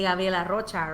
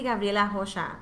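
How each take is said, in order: First: The R in Rocha is pronounced as an R. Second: The R in Rocha is not said as R. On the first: This is how a Spanish speaker says it. The speaker calls it wrong. "a Mexican self like me would say" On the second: This is the original Portuguese way. The speaker calls it right. "It's actually"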